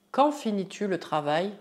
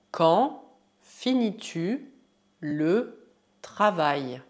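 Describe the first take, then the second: First: Said in the usual way. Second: Slow, separated words. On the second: Shown as a demonstration. Teacher models French question, slow word by word. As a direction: give each word room to be repeated.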